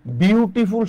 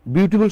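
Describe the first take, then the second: First: beautiful in three beats, বিউ-টি-ফুল; syllable by syllable. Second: Said in the usual way. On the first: Shown as a demonstration. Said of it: "তিনবার লাগছে". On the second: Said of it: "কতবার লাগছে বলেন তো".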